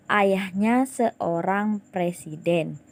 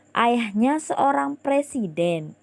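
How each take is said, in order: First: "presiden" said slowly with the pitch falling flat; falling statement tune. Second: "presiden" lifted up at the end, pitched higher; rising question tune. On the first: Teacher showing a plain statement tune to pupils. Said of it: "intonasi Ibu tidak meningkat". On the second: Teacher showing the rising question tune to pupils. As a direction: make "presiden" rise like a question. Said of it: "presiden tadi Ibu sebutkan dengan intonasi yang lebih meningkat". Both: Shown as a demonstration.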